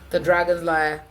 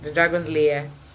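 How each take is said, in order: First: The last word sounds like liar. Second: The last word sounds like lair.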